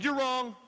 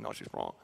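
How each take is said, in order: First: Confident, voiced, raised pitch; bold declaration. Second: Whispered insistence; "No, she's wrong" hissed under the breath. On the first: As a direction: say it openly to her face. Telling the teacher out loud. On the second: Retold or imitated. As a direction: keep it secret from the teacher. Insisting quietly to friend in class.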